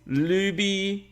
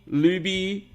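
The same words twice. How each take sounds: The two takes are said the same way.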